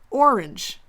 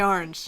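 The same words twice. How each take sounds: First: It is said in her original, non-Pennsylvanian way. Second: It is said the Pennsylvanian way.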